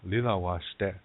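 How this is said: It is said in Lakota, with L sounds.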